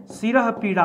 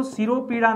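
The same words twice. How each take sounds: First: सिरह पीड़ा said as si-rah, then pee-ra; सिरह पीड़ा with a breathy h ending सिरह; सिरह पीड़ा split into two words, the right form; correct form. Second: सिरोपीड़ा said as si-ro-pee-ra, with an o after r; सिरोपीड़ा with a linking o, the form he rejects; सिरोपीड़ा run together as one word; wrong form. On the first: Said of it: "होता है". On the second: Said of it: "नहीं". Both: Shown as a demonstration.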